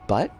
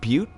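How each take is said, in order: First: The vowel sounds like the one in 'cut'. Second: The vowel sounds like the one in 'cute'. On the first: The speaker calls it wrong. "I'm gonna pronounce it butt because I can" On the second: The speaker calls it right. "I know it's pronounced butte"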